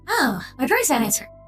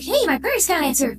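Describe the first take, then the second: First: It sounds worried and uneasy. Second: It sounds excited and celebratory.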